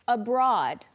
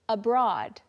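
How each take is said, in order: Both takes have the same delivery.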